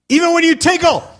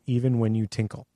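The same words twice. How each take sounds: First: It is said excitedly, with exclamatory energy. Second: It is read flatly, without excitement.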